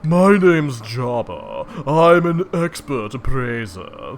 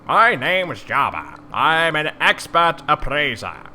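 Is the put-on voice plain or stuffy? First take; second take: stuffy; plain. First: It is said in a stuffy voice. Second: It is said in a less stuffy voice.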